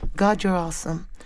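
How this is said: It is said flatly, with little energy. "I was just simply saying it real bland"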